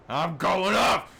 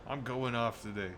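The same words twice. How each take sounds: First: Loud, higher, slow shout of "off"; loud declaration. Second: Said in the usual way. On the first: Shown as a demonstration. Streamer hyping his own rant, shouting. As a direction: belt out "I'm going off!" like a battle cry.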